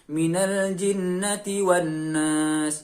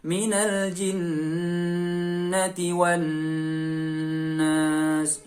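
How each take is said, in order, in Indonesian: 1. Dengungnya hanya ditahan sangat sebentar. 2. Dengungnya ditahan terlalu lama. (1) "Misal cuma satu harokat. Nah itu kurang" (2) "Atau terlalu lama. Itu juga terlalu berlebihan"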